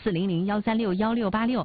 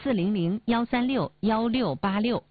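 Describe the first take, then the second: First: The number is said at normal speed. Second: The number is said slowly.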